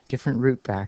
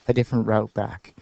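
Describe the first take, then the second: First: The word route has a Canadian pronunciation. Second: The word route has an American pronunciation. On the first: The speaker calls it right. "I'm trying to pronounce that word in a Canadian way" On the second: The speaker calls it wrong. "I got into a habit of saying it in the American way"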